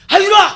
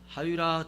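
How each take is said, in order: First: The name is shouted loudly and urgently. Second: The name is called in a calm voice.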